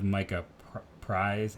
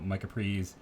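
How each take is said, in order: First: The surname has the vowel of 'eyes'. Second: The surname has the vowel of 'ease'. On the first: The speaker calls it wrong. "I think I've been saying, instead of Micah Prize" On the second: The speaker calls it right. "it's Prees"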